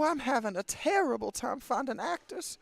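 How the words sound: It is read in a put-on Southern accent.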